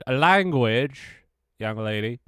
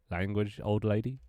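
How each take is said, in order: First: Loud, drawn-out mock telling-off, pitched up; mock scolding. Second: Milder telling-off at ordinary volume; toned-down mock scolding. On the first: Streamer ticks off a swearing viewer, mock scolding. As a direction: scold playfully, stretching out LANGUAGE loudly. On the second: Streamer corrects it for a not-young viewer, mild mock scolding. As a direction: redo the scold gently, as an offering.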